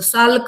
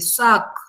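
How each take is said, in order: First: The L sound is pronounced in the name. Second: The L sound is silent in the name. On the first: The speaker calls it wrong. "साल्क म्हणायचं नाही" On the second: The speaker calls it right. "एल silent आहे त्याचा उच्चार करायचा नाही"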